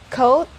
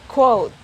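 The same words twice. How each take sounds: First: There is no W sound after the K. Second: There is a W sound after the K. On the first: "the first one doesn't have the sound of it" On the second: "The second one has the sound of it"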